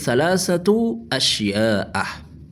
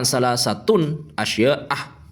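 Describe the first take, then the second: First: The second word ends in a vowel, no n. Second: The second word ends with an added n sound. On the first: The speaker calls it right. "yang benar itu salah satu asya'a" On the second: The speaker calls it wrong. "jangan dibaca tanwin"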